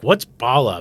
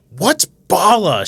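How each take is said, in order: First: Said in the usual way. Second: Drawn-out loud yell, pitched high. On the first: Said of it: "and she's like". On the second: Retold or imitated. Girl to random passers-by on the ship, yelling. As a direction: yell it slowly at passing strangers. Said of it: "She just starts yelling at them".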